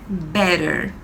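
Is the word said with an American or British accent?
American. It is said with an American accent. "o americano é"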